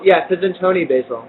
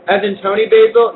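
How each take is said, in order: First: "Yes, as in Tony Basil." turun tegas, tekanan pada "Yes"; confirming fall. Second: "as in Tony Basil?" naik di akhir seperti bertanya heran, "Basil" ditekankan; questioning rise. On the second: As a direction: ask "as in Tony Basil?" with rising pitch on "Basil". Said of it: "Yes, as in [name]". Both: Real, not acted.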